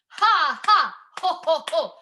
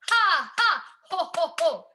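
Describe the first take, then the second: Both takes have the same delivery.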